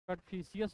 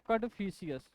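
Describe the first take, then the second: First: The name ends with a drawn-out 'fishius'. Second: The name ends with a drawn-out 'fishius'.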